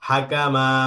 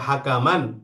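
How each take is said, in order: First: The word ends with a lengthened final vowel. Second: The word ends with an n sound. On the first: The reader stops at this word. "এক আলিফ টান দিয়ে" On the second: The reader runs on into the next word. "মিলে পড়েন তখন তো পড়তে হবে হাকামান"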